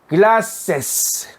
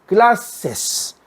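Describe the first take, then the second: Both takes have the same delivery.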